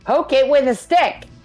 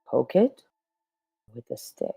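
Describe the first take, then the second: First: It is said fast, energetic and aggressive. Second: It is said calmly at normal speed.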